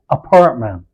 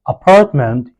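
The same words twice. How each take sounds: First: The T is a throaty hiccup stop. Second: The T is fully released. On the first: "you say" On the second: "instead of saying"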